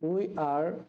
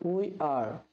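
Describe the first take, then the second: The two takes are said the same way.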